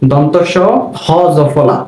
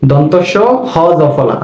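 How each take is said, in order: Both takes have the same delivery.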